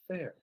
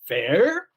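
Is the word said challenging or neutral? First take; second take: neutral; challenging. First: The word is said neutrally and left hanging. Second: The word is said in a challenging, pointed way. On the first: The speaker invites the other side to explain. The speaker calls it right. "You're just repeating it. You're just letting it hang there" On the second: The speaker disputes that the offer is fair. The speaker calls it wrong. "you don't say fair"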